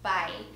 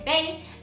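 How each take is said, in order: First: The name is said with a German pronunciation. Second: The name is said with an English pronunciation. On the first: "and that one is Bay" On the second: "or in English you would say Bay"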